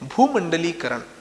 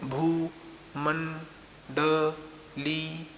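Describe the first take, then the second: First: The word is said smoothly as one unit. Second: The word is broken up with pauses between parts. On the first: The speaker calls it right. "एक साथ ही उच्चारण करना जायज है" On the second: The speaker calls it wrong. "पृथक अलग अलग करके"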